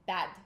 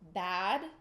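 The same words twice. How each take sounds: First: The word is shorter and more emphasized. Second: The word is longer and less emphasized. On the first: "a little bit shorter and a little bit more uh, emphasized" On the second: "Bad in English"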